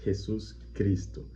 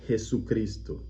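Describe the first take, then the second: First: Two separate words, with the s sound kept. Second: One joined word, with the s sound dropped. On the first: The speaker calls it wrong. "a gente não separa duas palavras" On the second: The speaker calls it right. "É uma palavra só e a gente tira o S final de Jesus"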